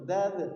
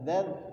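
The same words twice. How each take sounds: First: The final consonant is released with a bounce. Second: The final consonant is held without any release. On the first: "kalau dilepaskan mantul" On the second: "langsung ditempelkan gigi atas dengan ujung lidah"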